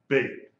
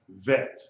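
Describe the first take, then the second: First: The name begins with a B sound. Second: The name begins with a V sound. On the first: The letter has a dagesh. "with a degesh is pronounced like a B" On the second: The letter has no dagesh. "Without the degesh, it is pronounced vet, a V sound"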